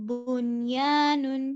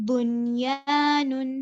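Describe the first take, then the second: Both takes have the same delivery.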